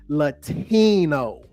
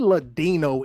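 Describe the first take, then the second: First: The middle consonant is a T sound. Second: The middle consonant is a D sound. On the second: "we don't say Ladino anymore"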